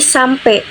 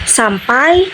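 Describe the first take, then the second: First: The final vowel is one plain vowel sound. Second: The final vowel glides between two vowel sounds.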